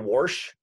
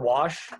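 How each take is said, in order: First: An extra consonant sound is inserted in the word. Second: The word has no extra inserted consonant sound. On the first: This is how some people say it. "Sort of like when people say wash" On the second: This is the standard form of the word. "for wash"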